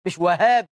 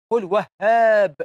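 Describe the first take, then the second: First: "وهاب" in the common wrong pronunciation, at normal pace; tossing off the mistaken "وهاب". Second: "وهاب" said slowly with the correct Arabic pronunciation. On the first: Preacher showing the common mistake, quick dismissive demo. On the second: Preacher teaching the congregation God's name, slow careful demo. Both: Shown as a demonstration. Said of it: "قل وهاب، مش وهاب".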